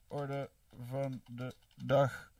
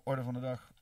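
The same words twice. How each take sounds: First: Very slow, word by word; drawn-out dictation. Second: Said in the usual way. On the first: Real, not acted. Streamer typing out a poll option, slow dictation. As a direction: stretch each word as if typing along. Spelling out phrase while typing it.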